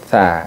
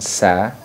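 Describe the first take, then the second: First: The first sound is a th. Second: The first sound is a plain s. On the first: The speaker calls it right. "tapi tha" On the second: The speaker calls it wrong. "Tha bukan sa"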